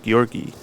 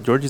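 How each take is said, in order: First: The name begins with a hard G sound. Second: The name begins with a soft G sound. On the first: The speaker calls it right. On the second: The speaker calls it wrong.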